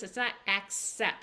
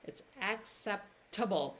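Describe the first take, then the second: First: Acceptable rushed and clipped to akse, wrong way; wrong version. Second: Acceptable said fully, ak-SEP-tuh-bul, falling; right version. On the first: Teacher showing the wrong way to say acceptable. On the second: Teacher showing the right way to say acceptable. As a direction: say acceptable in full. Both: Shown as a demonstration. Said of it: "See the difference?".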